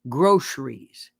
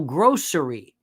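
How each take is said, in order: First: The word ends with an s sound. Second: The word ends without an s sound. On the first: The speaker calls it wrong. "don't say groceries" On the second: The speaker calls it right. "It's grocery"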